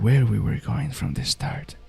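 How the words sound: It is said in a soft, close ASMR voice.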